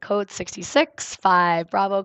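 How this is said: It is said calmly and steadily.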